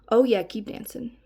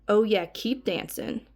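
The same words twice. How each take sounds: First: It sounds mildly suggestive. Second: It sounds more creepy and leering.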